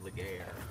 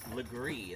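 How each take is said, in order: First: The name ends with a 'guerre' sound. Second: The name ends with a 'gree' sound. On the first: This is the original French way. "instead of Laguerre" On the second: This is the local way of saying it. "is Legree"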